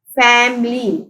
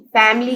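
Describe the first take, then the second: First: family drawn out as fam-ly; teacher parting fam and ly in family; syllable by syllable. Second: Said in the usual way. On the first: Shown as a demonstration. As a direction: sound out family in separate beats. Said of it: "family के three syllables हैं". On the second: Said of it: "three syllables हैं".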